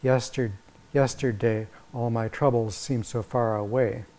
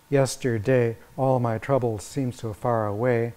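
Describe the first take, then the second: First: Yesterday, all my troubles seemed so far away with the weight on troubles; the other reading, leaning on troubles; alternative reading. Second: Yesterday, all my troubles seemed so far away with all stressed and a falling Yesterday; grid reading. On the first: Lecturer offering an alternative metrical reading of the lyric. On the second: Lecturer reading the lyric following the metrical grid. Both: Shown as a demonstration.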